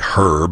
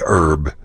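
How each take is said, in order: First: It is said with the h pronounced, British style. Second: It is said with the h dropped, Texan style.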